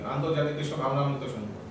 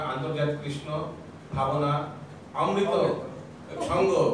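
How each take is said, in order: First: The compound word is run together smoothly as one. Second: The compound word is broken into two separate words. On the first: The speaker calls it right. "এরভাবে বলবেন" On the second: The speaker calls it wrong. "এইভাবে তো বলবেন না"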